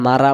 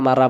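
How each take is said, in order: Both takes have the same delivery.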